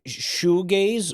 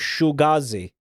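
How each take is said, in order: First: The word ends plainly, without an extra ee. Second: The word ends with an extra ee, like Benghazi.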